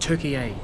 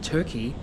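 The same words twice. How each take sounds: First: It is said as the three-syllable Turkish 'Türkiye'. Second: It is said as the two-syllable English 'Turkey'. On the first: The speaker calls it right. "apparently it's called Turkey" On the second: The speaker calls it wrong. "I've been pronouncing it Turkey"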